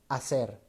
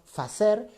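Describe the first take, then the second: First: The word begins directly with a vowel. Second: The word begins with an f sound. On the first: This is the final modern form. "la H que era exhalada va a devenir en la H muda" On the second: This is the older Latin-based form. "Palabras que en latín se decían con F"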